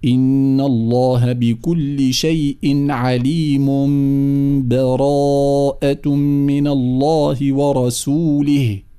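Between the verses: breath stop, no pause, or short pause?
no pause. The verses are joined with no pause between.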